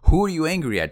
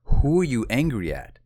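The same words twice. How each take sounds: First: Loud, high insistent demand; raised voice. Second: Insistent question, louder and higher; pressing coach. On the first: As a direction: demand an answer as a coach losing patience. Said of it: "my coach raised his voice". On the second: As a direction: press hard for an answer. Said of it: "he pressed me". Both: Retold or imitated.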